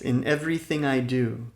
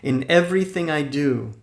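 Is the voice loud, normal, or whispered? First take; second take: normal; loud. First: It is said at ordinary speaking volume. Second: It is said loudly with high energy. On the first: "In a normal speaking voice" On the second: "first in a loud, energetic voice"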